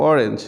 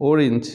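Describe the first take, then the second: First: অরেঞ্জ ending in "-renj"; common mispronunciation. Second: অরেঞ্জ ending in "-rinj"; correct pronunciation. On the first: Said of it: "common কিছু শব্দের". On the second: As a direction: say অরেঞ্জ as "OR-inj". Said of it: "ও সঠিক উচ্চারণ". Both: Shown as a demonstration.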